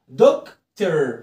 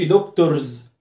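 First: The ending is a weak 'er' sound. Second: The ending is a full 'or' sound. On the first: The speaker calls it right. "نفس الصوت ار" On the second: The speaker calls it wrong. "ما اقولش دكتورز"

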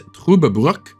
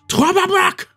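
First: The name is said in a calm, neutral way. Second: The name is said harshly, as if shouting angrily. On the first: The speaker calls it right. "I believe its actual pronunciation is" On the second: The speaker calls it wrong. "a lot of people think that Germans are just angry when they speak, so they think it's more like"

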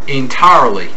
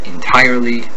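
First: The R sound is drawn out in a Southern drawl. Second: The R sound is a hard retroflex R. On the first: "exaggerate the R endings" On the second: "The typical American speaker pronounces these words with a similar hard retroflexed R"

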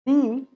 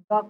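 First: The word is said with a long 'ee' vowel. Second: The word is said with a short, weak vowel. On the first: The next word starts with a vowel sound. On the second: The next word starts with a consonant sound.

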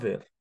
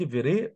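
First: The word ends on the r with no vowel. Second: A vowel sound is pronounced after the final r. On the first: The speaker calls it right. "حرف الاي ده لما يجي في الاخر ما بنطقوش" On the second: The speaker calls it wrong. "انت قلت فيري"

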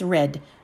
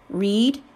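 First: The vowel is short, as in 'bed'. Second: The vowel is long, as in 'need'. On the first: The action happened in the past. "In the past tense, it's read" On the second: The action happens now or regularly. "It is pronounced read in the present tense"

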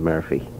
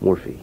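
First: The first vowel sounds like 'er'. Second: The first vowel sounds like 'or'.

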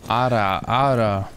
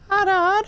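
First: It is said in a femboy-style voice. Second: It is said in a feminine girl's voice.

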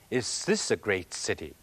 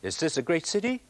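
First: The voice falls at the end like an exclamation. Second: The voice rises at the end like a question. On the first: It is an exclamation of admiration. "只有咁樣講……咁先至係感嘆語。" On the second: It is a real question. "如果你咁樣講……咁就變成真問題。"

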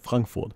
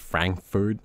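First: The name has a German pronunciation. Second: The name has an English pronunciation. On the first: This is what the city is really called. "it's not what it's called, it's Frankfurt" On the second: This is the name used in English. "that's like how you say it in English"

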